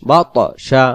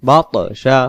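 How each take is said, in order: No difference in how they are said.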